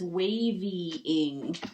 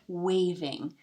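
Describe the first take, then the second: First: An extra "ee" vowel comes before the -ing. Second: No extra vowel comes before the -ing. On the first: The speaker calls it wrong. "it says wavying" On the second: The speaker calls it right. "That looks much better"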